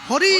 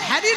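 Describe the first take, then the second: First: The name has a Bengali 'Hori' sound. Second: The name sounds English-like, like 'Harry'. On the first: It is the proper way to say the name. The speaker calls it right. "নয় হরি" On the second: It mocks how foreigners say the name. The speaker calls it wrong. "হ্যারি নয়"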